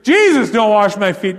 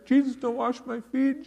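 First: It is said forcefully and emphatically. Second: It is said softly and gently. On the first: The speaker firmly refuses. The speaker calls it right. "He's emphatic about it" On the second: The speaker is making a mild, personal request. The speaker calls it wrong. "Peter was not saying this in an intimate manner"

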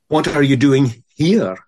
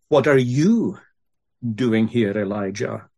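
First: The stress is on the word here. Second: The stress is on the word you.

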